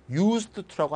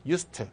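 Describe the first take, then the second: First: "used to" with d and t separate; over-articulate "used to" as two words; "used to" with the d fully sounded; unlinked pronunciation. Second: "used" blended into "to" as "yus-tu"; "used" as a smooth linked "used to"; linked pronunciation. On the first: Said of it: "라고 하지 말고". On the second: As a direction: say "used" with a silent d running into t. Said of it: "D 발음이 발음이 되지 않습니다". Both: Shown as a demonstration.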